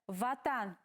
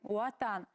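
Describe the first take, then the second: First: The word begins with a V sound. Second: The word begins with a U-like glide sound. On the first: This is how it is written. The speaker calls it wrong. "ватан пишется" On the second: This is how it is actually said. The speaker calls it right. "говорим уатан"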